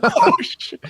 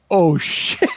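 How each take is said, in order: First: Much higher, squeaked disbelief; squeaky oh shit. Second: Laughing through the curse; laughing oh shit. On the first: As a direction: squeak it out in comic shock. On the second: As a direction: laugh it out in disbelief. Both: Retold or imitated. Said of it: "and I was like".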